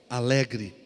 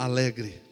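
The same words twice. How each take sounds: The two takes are said the same way.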